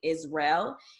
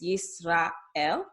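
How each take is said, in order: First: The a and e vowels blend together. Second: The a and e vowels sound separately. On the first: This is the English way of saying it. "like how we say Israel in English" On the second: This is the Hebrew way of saying it. "the A and the E are pronounced separately"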